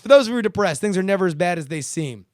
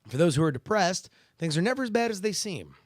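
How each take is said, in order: First: It is read fast and hyped-up, like an advert. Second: It is read in a calm, serious voice. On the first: The speaker calls it wrong. "I'm reading it like I'm about to fucking uh, do a Micro Machines ad" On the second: The speaker calls it right. "I read them like this"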